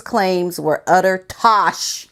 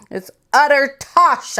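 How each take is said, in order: First: Said in the usual way. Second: Put-on "utter tosh" said high in a playful British accent; mock British slang. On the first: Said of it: "There's that word again". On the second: Vlogger showing viewers her new British slang, mock British accent. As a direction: try out "utter tosh" like a Brit, a bit higher. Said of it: "I'm learning my British vocabulary".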